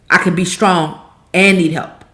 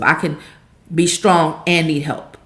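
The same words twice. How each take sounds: First: It is said louder than before. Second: It is said at the softest volume.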